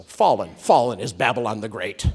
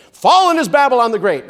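First: Said in the usual way. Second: High, loud proclamation; angel's great shout. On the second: Acted. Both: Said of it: "A great shout comes from an angel".

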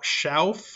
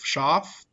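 First: Schauf said with an ow sound, like shouf; Schauf, the ow version of the name. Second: Schaaf said with a long ah, like shahf; Schaaf, the family's ah version. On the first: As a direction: say Schauf rhyming with how plus f. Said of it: "but I think it might be Schauf". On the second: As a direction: say Schaaf rhyming with loaf but with ah. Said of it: "We said Schaaf". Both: Shown as a demonstration.

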